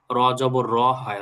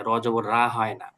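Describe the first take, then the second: First: র said short, not stretched to রা. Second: Whispered wrong form. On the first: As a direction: clip the র short. (র ছোট করে, রা নয়) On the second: (ফিসফিস করে ভুল রা) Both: Shown as a demonstration. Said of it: "যখন জের জবর আমরা পড়বো".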